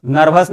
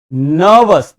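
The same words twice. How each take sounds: First: नर्वस with sounded r, "nar-vas"; नर्वस, short vowel and r pronounced; wrong pronunciation. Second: नर्वस with silent r, long "nuh-vus"; r-less, lengthened नर्वस; model pronunciation. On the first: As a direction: say नर्वस with a clear r. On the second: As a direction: say नर्वस loud and drawn out, no r. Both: Shown as a demonstration. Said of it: "नर्वस नहीं".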